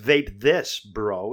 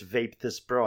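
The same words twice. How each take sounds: First: There is a short pause before bro. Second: It runs straight through with no pause before bro. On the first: It is said to a bro as a form of address. The speaker calls it right. "there's like supposed to be a comma there" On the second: It is an order to vape a bro. The speaker calls it wrong. "I don't think it's Vape This Bro"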